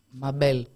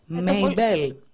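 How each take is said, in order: First: The name begins with a 'mah' sound. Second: The name begins with a 'may' sound. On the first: The speaker calls it wrong. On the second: The speaker calls it right.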